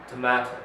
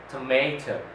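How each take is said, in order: First: It is said in a British accent. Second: It is said in an American accent. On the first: "but in British, it's tomato" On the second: "speaking in American accent, you say tomato"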